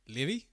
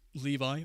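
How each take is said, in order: First: The name is pronounced the Finnish way. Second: The name is pronounced the English way. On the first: The speaker calls it right. "this is a Finnish name, so it's, uh, Levi, I think" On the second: The speaker calls it wrong.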